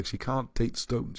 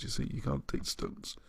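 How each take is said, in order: First: Said in the usual way. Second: Softly whispered repeat; whispered aside. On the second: Shown as a demonstration.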